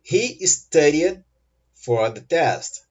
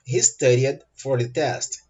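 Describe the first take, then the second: First: Very slow, pause before the last phrase; very slow model sentence. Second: Moderately slow, in one connected phrase; connected model sentence. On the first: Teacher models sentence, first take slower. (frase-modelo bem lenta e pausada) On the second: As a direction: say it slowly but joined up. Teacher repeats sentence more connectedly. (frase-modelo um pouco lenta, sem pausa) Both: Shown as a demonstration.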